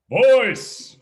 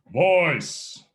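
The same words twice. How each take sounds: First: Louder, higher, ringing VOICE; projected from the gut. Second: Said in the usual way. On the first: Shown as a demonstration. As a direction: send Voice out to the back row. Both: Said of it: "Project your voice".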